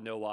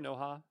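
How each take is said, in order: First: The second syllable begins with a w sound. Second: The second syllable begins with an h sound. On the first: The speaker calls it right. "it's Nowa" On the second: The speaker calls it wrong. "I'm saying Noha"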